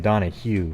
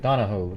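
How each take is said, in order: First: The name ends with an 'oo' sound. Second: The name ends with an 'oh' sound. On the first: The speaker calls it wrong. "I always want to say Donahue, but because that's more normal" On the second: The speaker calls it right. "I think it's like Donahoe"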